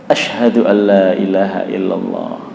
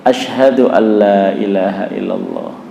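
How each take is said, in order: The two takes are said the same way.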